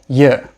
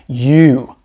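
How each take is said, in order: First: The vowel in 'you' is a weak schwa. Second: The vowel in 'you' is a full long 'oo'. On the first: "I said you. ... we usually pronounce it with a schwa sound" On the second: "notice how I didn't say you"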